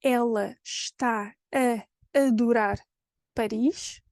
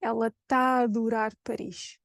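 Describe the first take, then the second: First: "ela está a adorar Paris" slowly word by word; full "está", sh heard, vowels unmerged; separate words. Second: "ela tá a adorar Paris" run together, one long open A; fuse "tá a adorar" into "taadorar"; connected speech, está cut to long "taa"; merged triple A. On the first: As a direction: keep each A in "está a adorar" apart, with pauses. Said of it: "In Portuguese, I have". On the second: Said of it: "which becomes". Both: Shown as a demonstration.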